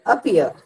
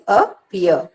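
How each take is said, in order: First: "appear" as one quick word, first syllable unstressed; second-syllable stress, joined up. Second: "Appear" split in two, first syllable unstressed, weight on "pear"; second-syllable stress, broken up. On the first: Teacher repeating the example word, "appear" joined up with stress on the second syllable. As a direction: run "appear" together, light start and weight on "pear". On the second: Teacher showing which syllable is stressed, "Appear" broken up with weight on "pear". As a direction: say "Appear" slowly as two parts, leaning on the second.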